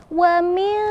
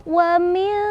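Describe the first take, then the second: The two takes are said the same way.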